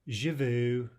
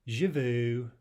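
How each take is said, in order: The two takes are said the same way.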